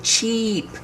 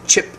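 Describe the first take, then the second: First: "cheap" with a long, high, tense EE; long E sound. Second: "chip" with a very brief, lax vowel; short relaxed I. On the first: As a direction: stretch the vowel in "cheap". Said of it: "when I make the long E sound". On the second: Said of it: "the sound is very short". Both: Shown as a demonstration.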